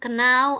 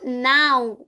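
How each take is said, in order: First: The word starts with a K sound before N. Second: The word starts with an N sound, no K. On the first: The speaker calls it wrong. "Jadi bukan kenau" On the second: The speaker calls it right. "K-nya nggak boleh dibaca"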